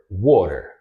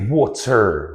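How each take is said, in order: First: The middle T is a quick flap. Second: The middle T is a clear T. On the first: "The perfect example" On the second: "I did not say water"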